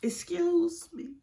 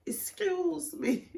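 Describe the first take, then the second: First: Put-on high, slow girly call for attention; imitating a cellmate politely butting in; girl in the cell. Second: High, slow repeated call; imitating a cellmate calling for attention again; girl in the cell. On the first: Imitating a cellmate in jail calling her, high and slow. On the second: Imitating a cellmate in jail calling her again, high and slow. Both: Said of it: "this girl in the cell was like".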